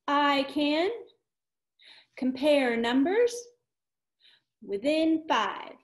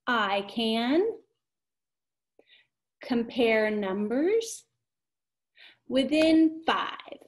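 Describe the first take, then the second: First: Slow, clear phrases; echo model with hand motions. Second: Slow, each phrase stretched out; modeling for echo. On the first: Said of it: "I do it, you do it". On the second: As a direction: say it slowly for them to echo. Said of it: "So I say it and then you say it". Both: Shown as a demonstration.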